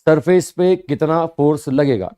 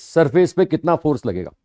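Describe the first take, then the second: First: surface leaned on, the whole phrase slowed down; slow, stress on surface. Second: Said in the usual way. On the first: Shown as a demonstration. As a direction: repeat it slowly, pressing on surface.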